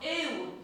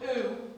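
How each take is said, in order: First: The vowel is a high fronted 'ew' sound. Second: The vowel is a rounded back 'ooh' sound. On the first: The speaker calls it right. "It's high in the mouth again" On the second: The speaker calls it wrong. "That it's not ooh"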